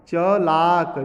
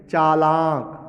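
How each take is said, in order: First: चलाक with short "cha", then long "laak"; loud चलाक, first syllable kept short; short first vowel. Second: चालाक with both "chaa" and "laak" held long; long first vowel. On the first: Teacher reading the misspelt word, short first vowel. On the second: Teacher giving the correct word, long first vowel. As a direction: stretch the first syllable of चालाक. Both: Shown as a demonstration. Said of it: "जबकि क्या होना चाहिए".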